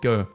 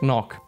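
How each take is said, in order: First: The name ends on a plain vowel. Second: The name has rough throaty consonant sounds. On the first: This is the American way of saying it. The speaker calls it wrong. "American people pronounce it go" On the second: This is the Dutch way of saying it. The speaker calls it right. "his name is actually pronounced Van Knock"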